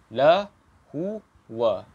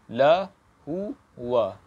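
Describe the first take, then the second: No difference in how they are said.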